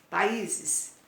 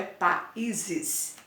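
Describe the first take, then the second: First: Said in the usual way. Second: "países" slowed and split, pa, then ízes; syllable demonstration. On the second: Shown as a demonstration. Teacher giving pupils the plural, "países" broken slowly as pa-ízes. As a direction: draw out "países" with a break after pa. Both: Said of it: "O is é oxítona".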